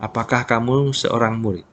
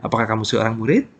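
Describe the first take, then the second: First: "Apakah kamu seorang murid?" with the tune falling at the end; wrong falling intonation. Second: "Apakah kamu seorang murid?" brisk, rising at the end; rising question intonation. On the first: Teacher shows learners how not to ask, falling intonation. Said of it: "Bukan kan ya?". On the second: Teacher shows learners how a question sounds, rising intonation. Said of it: "rising intonation". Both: Shown as a demonstration.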